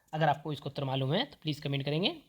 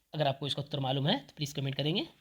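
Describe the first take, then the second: The two takes are said the same way.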